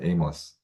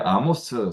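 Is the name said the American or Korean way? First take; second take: American; Korean. First: The name sounds like English 'Ay-mus'. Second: The name sounds like Korean 'Ah-mo-seu'.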